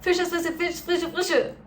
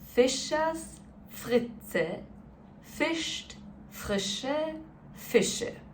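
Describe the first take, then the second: First: It is said as fast as possible. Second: It is said very slowly.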